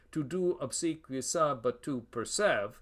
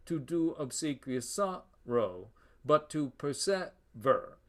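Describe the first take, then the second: First: Measured beat, "persev" cut off after SEV; regular iambic line. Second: Slow beat, weak detached "-row" and "-ver"; double feminine line. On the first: Lecturer showing the shortened line, regular beat. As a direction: scan it evenly with the extra syllables chopped off. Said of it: "we'd have a regular line". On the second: Lecturer reading the full line, feminine caesura and ending. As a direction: split SOR-row and per-SEV-er, pausing after each. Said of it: "Feminine ending plus feminine caesura". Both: Shown as a demonstration.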